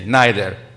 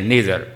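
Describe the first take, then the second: First: It is said with a British pronunciation. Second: It is said with an American pronunciation. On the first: "I'm now using the British translation accent" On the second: "Americans say neither"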